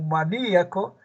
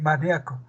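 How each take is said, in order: First: The i and a are in separate syllables. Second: The i and a are joined in one syllable. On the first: "Aquí con hiato acentual" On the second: "aquí con diptongo"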